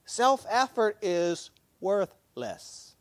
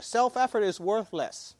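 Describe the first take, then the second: First: Slow, deliberate Self-effort is worthless; slow emphatic. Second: Said in the usual way. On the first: Shown as a demonstration. Preacher driving the lesson home to the congregation, slow and weighty. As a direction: lay it down word by word. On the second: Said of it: "That's the lesson here".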